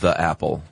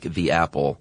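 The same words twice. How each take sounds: First: The article sounds like 'thuh'. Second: The article sounds like 'thee'. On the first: The speaker calls it wrong. "not the apple" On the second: The speaker calls it right. "you should say the when the, the following, uh, noun is, starts with a vowel"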